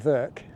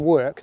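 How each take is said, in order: First: It is said with a German accent. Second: It is said with a plain English accent. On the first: "Some Germans say ... they'd say Werk" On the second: "instead of saying work"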